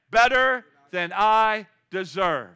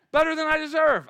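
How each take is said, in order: First: Slow, loud, drawn-out model answer. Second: High, loud, quick repeat of the answer; excited answer. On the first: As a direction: stretch every word so the crowd can echo it. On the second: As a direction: fire it back with joy. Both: Shown as a demonstration. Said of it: "What do you say?".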